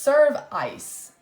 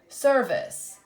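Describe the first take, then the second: First: The last syllable has a long 'eye' vowel. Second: The last syllable has a weak 'uh' vowel. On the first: The speaker calls it wrong. "With the long sound first" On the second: The speaker calls it right. "Let's try with the schwa"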